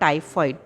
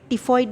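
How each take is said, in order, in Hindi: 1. पहला स्वर 'eye' जैसा सुनाई देता है। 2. पहला स्वर छोटे 'i' जैसा सुनाई देता है। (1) "इसको पढ़ेंगे टाइफॉइड" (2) "ये टिफॉइड नहीं पढ़ेंगे"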